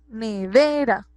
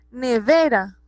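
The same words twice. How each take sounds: First: "nevera" slowed, with a long stressed ve; stress on penultimate syllable. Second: Said in the usual way. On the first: Shown as a demonstration. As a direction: stretch the middle ve of "nevera". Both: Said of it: "Tiene el acento en la penúltima sílaba".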